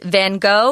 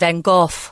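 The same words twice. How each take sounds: First: The name is said with English sounds. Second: The name is said with Dutch sounds. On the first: "So it's Van Gogh if you're talking in English" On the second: "the Dutch uh, pronunciation"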